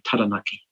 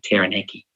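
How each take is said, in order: First: It is said with Māori vowels and rhythm. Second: It is said with English vowels and rhythm. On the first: The speaker calls it right. "I'm going to pronounce place names properly" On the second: The speaker calls it wrong. "not Taranaki"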